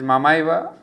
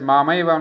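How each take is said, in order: First: The first vowel is kept short. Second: The first vowel is held long. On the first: The speaker calls it right. "It is the short Ma" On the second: The speaker calls it wrong. "I had mispre- mispronounced it as Mamaiva Amsha"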